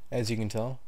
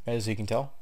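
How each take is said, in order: Both takes have the same delivery.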